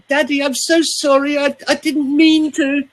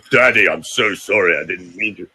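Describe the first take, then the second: First: Put-on high, childlike plea to daddy; pleading small child. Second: A low, heavy apology to daddy; low child's plea. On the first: Coach imitating a child apologising to daddy in a high voice. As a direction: beg like a frightened little kid. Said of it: "when we're stressed as a small child". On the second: Retold or imitated. Coach showing the low way a child never pleads. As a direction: say it low, with no whine. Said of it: "We don't go".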